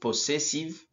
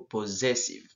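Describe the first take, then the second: First: The double S is sounded as S. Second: The double S is sounded as Z. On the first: The speaker calls it wrong. "Pas pos possessive" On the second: The speaker calls it right. "plutôt possessive"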